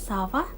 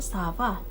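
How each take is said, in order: First: It is said with a questioning intonation. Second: It is said with a statement intonation. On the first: Someone asks how the other person is. "intonasi ketika kita bertanya" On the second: Someone replies that they are fine. "kita merespon"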